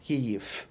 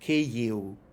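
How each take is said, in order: First: The final sound is a voiceless F. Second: The final sound is a short U. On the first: It is the Russian and Polish way. "V legitimately becomes F. So that's why Russians would say" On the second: It is the Ukrainian way. "V becomes a short U. So Ukrainians say"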